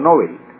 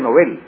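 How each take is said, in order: First: The stress is on the first syllable. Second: The stress is on the last syllable. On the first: The speaker calls it wrong. "no Nobel" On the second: The speaker calls it right. "en sueco se pronuncia Nobel"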